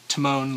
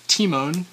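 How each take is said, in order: First: The 'ee' sound is not given extra emphasis. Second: The 'ee' sound is given extra emphasis. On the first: "most of us would say Timon, like Timon and Pumbaa" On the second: "it's pronounced Timon, so an emphasis on the E"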